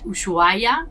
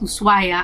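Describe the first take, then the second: First: The middle consonant is an sh sound. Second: The middle consonant is a plain s sound. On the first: The speaker calls it wrong. "I started pronouncing it Ushuaia because it has an S H" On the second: The speaker calls it right. "it's pronounced Ushuaia"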